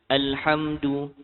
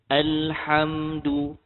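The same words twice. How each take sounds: First: It is recited quickly, with a shorter l sound. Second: It is recited slowly, with a longer l sound.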